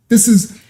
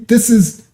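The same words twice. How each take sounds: The two takes are said the same way.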